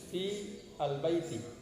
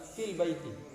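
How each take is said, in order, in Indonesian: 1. Kata-katanya diucapkan terpisah, alifnya dibunyikan. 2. Kata-katanya disambung, alifnya dihilangkan. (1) "kalau diputus-putus" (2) "kalau dibaca lanjut"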